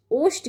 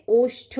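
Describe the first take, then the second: First: ओष्ठ ending in a quick dry ṭ; wrong unaspirated ending. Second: ओष्ठ ending in a puffed ṭh; correct aspirated ending. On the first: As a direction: say ओष्ठ as oshṭ, no breath. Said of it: "की जगह". (ओष्ठ के अंत में ट की ध्वनि) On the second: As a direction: say ओष्ठ as oshṭho, with breath. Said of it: "ठा आएगा". (ओष्ठ के अंत में ठ की ध्वनि) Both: Shown as a demonstration.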